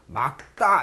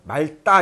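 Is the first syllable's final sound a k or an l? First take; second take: k; l. First: The first syllable ends in a k sound. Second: The first syllable ends in an l sound. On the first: The speaker calls it right. "막다 이렇게 돼야 된다는 얘기죠" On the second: The speaker calls it wrong. "말다 이런 사람도 있고"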